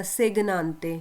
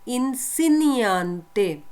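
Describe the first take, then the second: First: सेगनांते said with a hard g, as the wrong reading; reading सेगनांते the way not to. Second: Slow careful model of इंसिनियांते, no hard g; teacher spelling out इंसिनियांते slowly for the class; right pronunciation. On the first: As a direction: demo of the mistaken सेगनांते, hard g sounded. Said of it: "इसको आपने ऐसे नहीं पढ़ना". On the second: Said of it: "इसको आपने कैसे पढ़ना है". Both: Shown as a demonstration.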